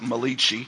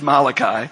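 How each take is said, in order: First: The name is said with an Italian-style pronunciation. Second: The name is said with a plain English pronunciation. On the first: The speaker calls it wrong. "if you're Italian, you probably pronounce it Malachi" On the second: The speaker calls it right. "But it's Malachi"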